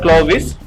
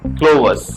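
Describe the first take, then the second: First: The second syllable sounds like 'vis'. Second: The second syllable sounds like 'vus'. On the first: The speaker calls it wrong. "It's not क्लोविस" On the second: The speaker calls it right. "It's क्लोवस"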